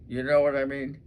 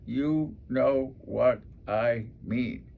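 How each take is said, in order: First: Said in the usual way. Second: Slow, drawn-out filler; slow filler phrase. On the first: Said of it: "a lot of us will say". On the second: Shown as a demonstration. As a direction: let the filler phrase drag out slowly. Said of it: "Those are extra words".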